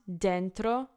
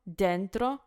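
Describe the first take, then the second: The two takes are said the same way.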